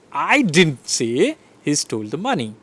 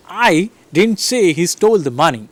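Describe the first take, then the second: First: I punched at the start; stress on I. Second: STOLE lifted and punched; stress on STOLE. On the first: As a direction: lean on the word I. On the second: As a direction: hit the word stole. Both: Shown as a demonstration. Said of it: "So I am stressing".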